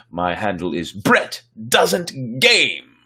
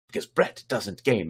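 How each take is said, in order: First: Said in the usual way. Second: Brett doesn't game run together in one quick breath; said quickly. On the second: Shown as a demonstration. Host shows viewers how the handle should sound, said quickly. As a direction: rattle off the handle quickly and concisely. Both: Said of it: "said very quickly and concisely".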